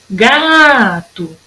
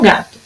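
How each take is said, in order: First: "Gato" with a long drawn GA; calling the word. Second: Said in the usual way. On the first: Shown as a demonstration. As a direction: stretch the GA of "Gato" slowly. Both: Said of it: "É a sílaba que dura mais".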